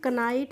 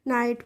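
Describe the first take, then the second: First: A k sound is heard before the n. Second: The word begins directly with the n sound. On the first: The speaker calls it wrong. "इसको हम कनाइट नहीं पढ़ेंगे" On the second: The speaker calls it right. "क्या पढ़ेंगे नाइट पढ़ेंगे"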